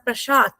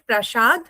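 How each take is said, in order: First: The word ends with a t sound. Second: The word ends with a d sound. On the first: This is how the local people say it. "they pronounce it as a Prasad, To" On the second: This is how one's own language says it. "We said Prasad, D, Do"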